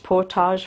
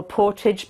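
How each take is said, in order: First: Portage said "por-TAHZH"; French-style ending. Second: Portage said "PORT-idge"; anglicised ending. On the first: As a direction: say portage with a long "-ahzh". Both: Shown as a demonstration. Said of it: "some of them can go either way".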